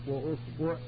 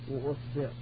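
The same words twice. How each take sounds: The two takes are said the same way.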